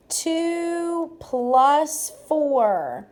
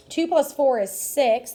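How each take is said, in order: First: Slowly stretched, rising at the end; a slow, rising read of the sum; drawn-out reading. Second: Said in the usual way. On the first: Shown as a demonstration. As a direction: read it out slowly, thinking it through.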